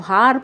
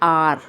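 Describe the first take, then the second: First: The word begins with an audible h sound. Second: The word begins directly with a vowel sound. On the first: The speaker calls it wrong. "उच्चारण गलत करते हैं" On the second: The speaker calls it right. "इस शब्द को पढ़ते हैं आर"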